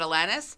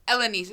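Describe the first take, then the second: First: The name is said with a plain English pronunciation. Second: The name is said with a French-sounding pronunciation. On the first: This is how the singer says her own name. "like [name] says it [name]" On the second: This is how a different person says her own name. "She's she says it with like a beautiful French sort of"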